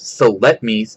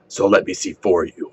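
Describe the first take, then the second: First: It is said in his own normal voice. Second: It is said in a put-on Batman voice.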